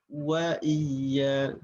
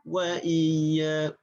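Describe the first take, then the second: No difference in how they are said.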